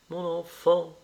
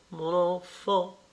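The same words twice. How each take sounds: First: Stagey exclamation, a hint higher; theatrical cry. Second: Slow, higher stagey repeat; drawn-out theatrical cry. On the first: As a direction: play it to the gallery. (s'écria madame Venn, théâtrale) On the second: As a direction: stretch it out for an imaginary audience. (répétition théâtrale, lente et plus aiguë) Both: Acted. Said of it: "s'écria madame Venn, les yeux au plafond".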